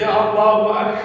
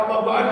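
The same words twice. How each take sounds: First: Allahu Akbar with the k of Akbar fully stopped; correct takbir. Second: Allahu Akbar with the k of Akbar left loose and breathy; wrong takbir. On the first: Teacher showing students the right takbir, firm k stop. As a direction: close the k in Akbar firmly before releasing. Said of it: "jangan Allahu Akbar". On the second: Teacher showing students the takbir to avoid, loose k. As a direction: let the k in Akbar leak air. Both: Shown as a demonstration.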